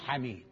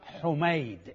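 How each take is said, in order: First: The first vowel is an open a sound. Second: The first vowel is a rounded u sound. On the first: The speaker calls it wrong. "مو حميد" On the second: The speaker calls it right. "يقرأ حميد"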